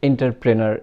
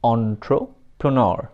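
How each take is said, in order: First: The word begins with an 'en' sound. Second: The word begins with an 'on' sound. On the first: The speaker calls it wrong. "অনেক কিছুই বলে থাকি।" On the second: The speaker calls it right. "Actual প্রনাউন্সিয়েশনটা হবে"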